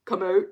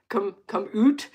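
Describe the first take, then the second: First: "out" said as plain ow; plain Canadian out. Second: "oot" said with a round Canadian oo. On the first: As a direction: say "out" like standard English ow. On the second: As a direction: stretch "oot" in an Alberta accent. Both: Shown as a demonstration. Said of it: "my Alberta accent".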